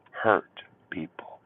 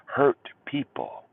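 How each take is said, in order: First: Slow whispered "Hurt people", almost breathed. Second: Slow emphasis. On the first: To his viewers, a slow whispered warning. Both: Shown as a demonstration. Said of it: "repeated as whisper".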